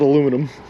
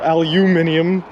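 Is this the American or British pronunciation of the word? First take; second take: American; British. First: It is said with four syllables, American style. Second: It is said with five syllables, British style. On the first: "and we pronounce it aluminum" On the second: "Why you guys pronounce it al- aluminium"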